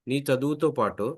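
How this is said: It is said in a gentle, compassionate tone. "కరుణరసం నాన్న"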